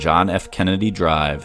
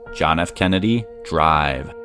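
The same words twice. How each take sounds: First: The name is said plainly, as a street name. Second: The last word is stressed strongly. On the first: It is the name of a street. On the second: It refers to the car ride of the motorcade.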